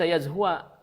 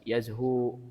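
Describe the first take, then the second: First: The word ends with a short a vowel. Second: The word ends without a final vowel. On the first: The speaker calls it wrong. "yang ini bukan dibaca yazhua" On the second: The speaker calls it right. "dibacanya yaz yazhu sukun"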